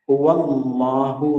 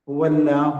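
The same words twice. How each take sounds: First: The L sound is heavy and dark. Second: The L sound is light and thin. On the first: The speaker calls it right. "എന്നല്ലേ" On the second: The speaker calls it wrong. "എന്ന് പറയാറില്ല"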